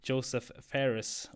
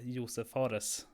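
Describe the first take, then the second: First: The name is said with an English pronunciation. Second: The name is said with a Swedish pronunciation.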